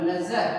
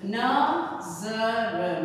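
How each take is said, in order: First: नजर in one piece with z, lower; joined-up z pronunciation. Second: नजर very slowly split, na, za, r; syllable-by-syllable z demo. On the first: Teacher rejoining the syllables, नजर whole with z. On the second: Teacher breaking down the word, नजर slowly with z. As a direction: break नजर apart, buzzing the z. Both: Shown as a demonstration. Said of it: "देखिए बोलने वाला नजर".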